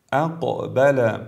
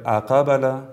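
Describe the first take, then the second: First: Slow اقبل with a short bounced ق; brief qalqala. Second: Full "a" vowel after ق, اقبل as "aqabala"; wrong qalqala. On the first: Tajweed teacher repeats اقبل for viewers, correct brief bounce on ق. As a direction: release the ق of اقبل briefly, without leaning to any vowel. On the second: Tajweed teacher warns learners, saying اقبل wrongly as "aqabala". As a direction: overdo the bounce in اقبل into a fatha on ق. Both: Shown as a demonstration.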